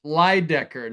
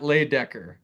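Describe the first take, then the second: First: The first syllable sounds like 'lie'. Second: The first syllable sounds like 'lay'. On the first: The speaker calls it right. "It's Everest Lydecker" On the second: The speaker calls it wrong. "not Laydecker"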